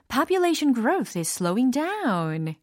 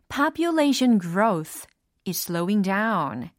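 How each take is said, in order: First: The sentence is said at a faster pace. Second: The sentence is said at a normal pace.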